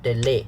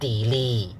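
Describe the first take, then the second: First: The vowel is a short e sound. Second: The vowel is a long e sound. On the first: The speaker calls it right. "short e, not the long e" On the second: The speaker calls it wrong. "If you use the long e, it's wrong"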